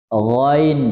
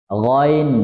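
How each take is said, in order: The two takes are said the same way.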